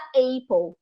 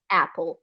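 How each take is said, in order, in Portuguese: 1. A primeira vogal desliza como um ditongo. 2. A primeira vogal é uma vogal simples. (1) "muita gente vai acabar chamando" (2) "não vai poder ser A, vai ser A mesmo"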